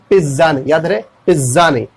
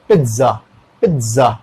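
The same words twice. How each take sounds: First: पिज़्ज़ा as "piz-za", buzzing z and no t; wrong pronunciation. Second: पिज़्ज़ा as "pit-za", falling lower; correct pronunciation. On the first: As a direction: show पिज़्ज़ा without any t, rejecting it. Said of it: "not P I double Z". (पिज़्ज़ा को बिना ट के बोलकर) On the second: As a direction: put a t before the z in पिज़्ज़ा. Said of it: "एक टी का sound आ जाएगा". (पिज़्ज़ा में ट की आवाज़) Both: Shown as a demonstration.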